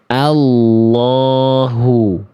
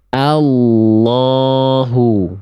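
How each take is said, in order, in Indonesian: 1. L tebal dengan bibir tidak membulat. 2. L tebal dengan bibir tidak membulat.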